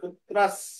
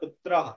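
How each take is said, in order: First: The word ends with an s sound. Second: The word ends with an h sound. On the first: The speaker calls it right. "পুত্র দন্তস্ব পর্যন্ত আনতে হবে" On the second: The speaker calls it wrong. "ওখানে যদি কেউ বিসর্গ উচ্চারণ করে তা হবে পুত্রাহ"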